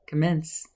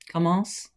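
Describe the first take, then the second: First: It is pronounced the English way. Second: It is pronounced the French way. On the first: "you say it in an English way" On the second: "If you take the French word"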